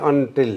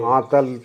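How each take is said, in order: First: The name ends with a 'til' sound. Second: The name ends with a 'tal' sound. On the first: This form follows the English spelling of the name. "अंग्रेजी चल गई है, अंग्रेजी में A N T I L, अंटिल अंटिल करते हैं।" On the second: This is the original form of the clan name. "वो आंतल शब्द है ये"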